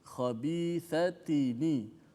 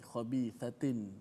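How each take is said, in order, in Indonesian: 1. Kata itu berakhir dengan n diikuti i. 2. Kata itu berakhir dengan bunyi n mati. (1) "dibariskan nun tersebut dengan baris bawah" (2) "kita bunyi nun mati di hujung"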